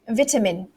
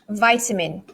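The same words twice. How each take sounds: First: It is said with a British pronunciation. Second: It is said with an American pronunciation. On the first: "let's do the British way first" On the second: "But the Americans"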